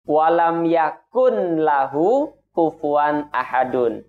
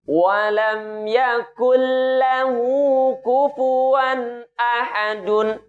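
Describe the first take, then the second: First: The n sound is pronounced before lahu. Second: The n sound merges into the l sound. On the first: The speaker calls it wrong. "Tidak dibaca dengan bunyi" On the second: The speaker calls it right. "nun ... kita leburkan kepada huruf lam"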